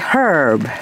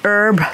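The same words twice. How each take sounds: First: It is said in an Australian way. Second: It is said in a non-Australian way. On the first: This is how it is said locally. "we say herb here in Australia" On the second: This is how others say it. "You say herb"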